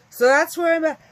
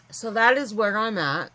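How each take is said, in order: First: Said through a big yawn. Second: Said in the usual way. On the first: Real, not acted. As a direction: stretch the words mid-yawn, high and loud. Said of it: "I'm always yawning". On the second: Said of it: "So sorry".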